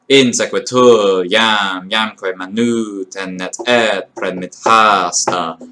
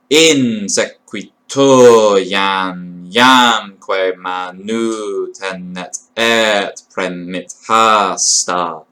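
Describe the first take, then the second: First: The line is read quickly and smoothly. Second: The line is read slowly, syllable by syllable. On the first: "That's a fast line" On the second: "Obviously, it would be read a bit faster than that"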